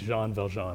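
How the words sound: The name is pronounced with French sounds. The speaker calls it right. "but I learned, okay, it's Jean Valjean"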